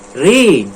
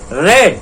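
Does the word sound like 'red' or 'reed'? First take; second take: reed; red. First: The vowel is long, like in 'reed'. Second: The vowel is short, like in 'red'. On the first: The action happens now. "in present tense" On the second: The action already happened. "in past tense"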